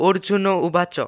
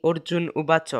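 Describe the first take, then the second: First: অর্জুন with a voiced vowel after n; correct pronunciation. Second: অর্জুন stopped on its final n; common pronunciation. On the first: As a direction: say অর্জুন as or-ju-no, without stopping on n. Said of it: "নির্ভুল উচ্চারণ হলো". (অর্জুন, শেষে না থেমে ও-ধ্বনি) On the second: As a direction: say অর্জুন উবাচ as orjun ubacho. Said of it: "আমরা যার উচ্চারণ করে থাকি". (অর্জুন, শেষের ন-এ থেমে) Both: Shown as a demonstration.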